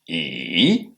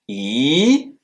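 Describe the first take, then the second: First: The pitch dips low, then rises. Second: The pitch rises from middle to high. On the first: "un ton qui fait en creux" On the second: "un ton qui monte"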